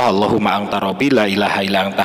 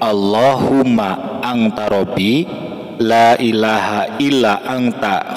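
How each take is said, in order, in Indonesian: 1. Dibacakan dengan tempo normal, agak cepat. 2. Dibacakan dengan lambat dan perlahan.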